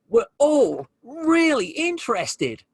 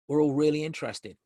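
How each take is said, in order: First: The voice sounds genuinely interested and engaged. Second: The voice sounds flat and uninterested.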